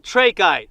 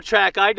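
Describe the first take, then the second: First: "trachyte" with a long A, TRAY-kite; variant pronunciation. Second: "trachyte" with a short A, TRACK-ite; alternative pronunciation. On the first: Rockhound showing one way to say it, "trachyte" as TRAY-kite. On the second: Rockhound offering the other way, "trachyte" as TRACK-ite. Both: Shown as a demonstration. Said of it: "depending on how you wanna pronounce it".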